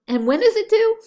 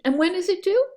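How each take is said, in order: First: The question sounds irritated and put out. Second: The question sounds calm and simply curious. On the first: The speaker resents being given the task. The speaker calls it wrong. "I'm not going to respond like that" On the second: The speaker just wants the facts about the task. The speaker calls it right. "as though I'm looking for information"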